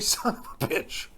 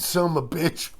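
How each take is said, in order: First: Every word is said fully and clearly. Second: The phrase is reduced to "some a bitch". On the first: The speaker calls it right. "They never say "son of a bitch."" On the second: The speaker calls it wrong. "They always go that "some a bitch.""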